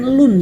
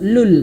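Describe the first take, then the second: First: The word ends with an 'n' sound. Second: The word ends with an 'l' sound. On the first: The speaker calls it wrong. "bukan lun ya" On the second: The speaker calls it right. "tapi lu saja, langsung lul"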